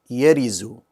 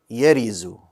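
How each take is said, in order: The two takes are said the same way.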